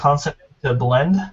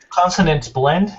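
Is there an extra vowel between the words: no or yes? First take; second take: yes; no. First: An extra vowel is inserted between the words. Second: The words join with no extra vowel. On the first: The speaker calls it wrong. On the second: The speaker calls it right.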